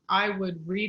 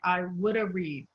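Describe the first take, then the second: First: The words link with no extra vowel. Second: An extra uh sound follows the d. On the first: "you would say, like" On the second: "put an uh sound between two consonants"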